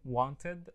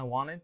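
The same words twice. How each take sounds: First: "wanted" drawn out slowly with a clear middle T; full careful pronunciation. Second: "wanted" as "wannit", no T after the N; casual dropped T. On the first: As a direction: sound out "wanted" as want-ed, both syllables full. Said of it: "بتنطق wanted". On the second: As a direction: say "wanted" casually with the middle T swallowed. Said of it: "بس الأمريكان native speakers". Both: Shown as a demonstration.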